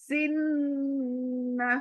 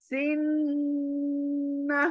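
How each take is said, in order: No difference in how they are said.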